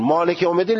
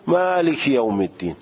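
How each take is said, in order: First: مالک یوم الدین in a Persian accent; Persian-accented Quranic مالک یوم الدین. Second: مالک یوم الدین in an Arabic accent; Arabic-accented Quranic مالک یوم الدین. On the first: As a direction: recite مالک یوم الدین with Persian vowels, yom as "yowm". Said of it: "لهجهٔ فارسیه". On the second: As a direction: recite مالک یوم الدین with Arabic vowels, maaliki yawm. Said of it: "عربی باید بگی". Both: Shown as a demonstration.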